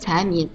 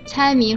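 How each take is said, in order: First: The first syllable has a rising tone. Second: The first syllable has a high level tone. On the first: A person who loves money and is stingy. "财迷的财是二声" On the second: Guessing riddles. "猜谜的猜是一声"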